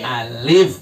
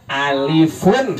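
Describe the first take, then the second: First: ALIF low, closing on F with no -un; stopped ending. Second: ALIFUN with the -UN ending sounded; original full ending. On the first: Teacher showing the class the waqf form, stopped ending. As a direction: stop dead on the F of ALIF. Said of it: "diberhentiin jadi apa?". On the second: Teacher showing where the letter name comes from, full ending. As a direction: draw out ALIFUN through its final -un. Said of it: "Alif itu asalnya alifun". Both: Shown as a demonstration.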